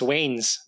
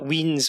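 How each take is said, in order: First: The vowel sounds like 'ay'. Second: The vowel sounds like 'ee'. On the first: The speaker calls it right. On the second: The speaker calls it wrong. "Not Weens"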